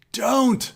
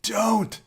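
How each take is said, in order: First: Much higher and louder desperate cry; panicked cry. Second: Much higher, frightened whimper; whimpering plea. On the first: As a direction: scream the plea in panic. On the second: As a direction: beg weakly, voice climbing in fear. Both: A narrator's reading. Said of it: "unsteady and whimpering".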